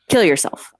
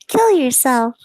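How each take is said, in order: First: It is said in the speaker's normal voice. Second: It is said in a put-on Kadopal character voice.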